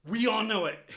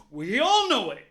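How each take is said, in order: First: Said in the usual way. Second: "all" stressed and much louder; loud emphatic. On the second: Real, not acted. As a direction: declare it loudly to everyone.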